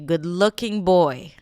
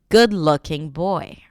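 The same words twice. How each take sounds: First: The stress falls on looking and boy. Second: The stress falls on the word good. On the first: The speaker calls it wrong. "looking boy, stress, stress" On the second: The speaker calls it right. "When it becomes the adjective and it's hyphenated"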